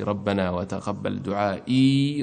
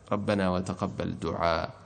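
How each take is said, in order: First: The last word ends with a final 'ee' sound. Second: The last word ends without a final 'ee' sound. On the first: The reciter continues without stopping. "يثبتونها حال الوصل" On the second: The reciter stops at this word. "وإذا وقفوا يقفونها بدونها"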